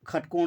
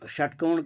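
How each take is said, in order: First: The word begins with a kh sound. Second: The word begins with a sh sound. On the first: "खटकोण भी बोल सकते हैं" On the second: "षटकोण की जगह में"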